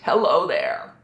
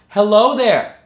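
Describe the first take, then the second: First: The voice sounds pressed and tight. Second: The voice sounds balanced, neither pressed nor airy. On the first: The speaker calls it wrong. "Too tight" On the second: The speaker calls it right. "Just right"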